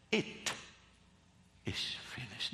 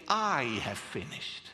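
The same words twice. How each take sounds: First: Whispered. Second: "I have finished" with the weight on "I"; stress on I. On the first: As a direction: breathe "It is finished" as a hushed whisper. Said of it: "The full emphasis is not on that". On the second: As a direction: lean on "I", as people say it. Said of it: "not "I". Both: Shown as a demonstration.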